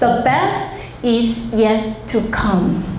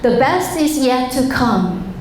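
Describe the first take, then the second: First: It is read in a plain, careful style. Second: It is said in a fluent, native-like style.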